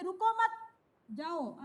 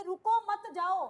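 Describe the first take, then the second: First: "रुको मत" joined, then a break before "जाओ"; slow it, parting "जाओ" from "रुको मत"; pause after मत. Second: Loud "रुको", slight break, then "मत जाओ" together; pause after रुको. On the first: Teacher explaining the going sense, pausing after "मत". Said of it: "अर्थात जाने के लिए बोला जा रहा है". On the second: Teacher explaining the stopping sense, stressing "रुको" apart. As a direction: punch "रुको", keep "मत जाओ" as one unit. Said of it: "तो रोकने का भाव है". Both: Shown as a demonstration.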